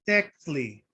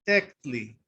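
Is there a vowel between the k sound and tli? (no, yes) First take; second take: no; no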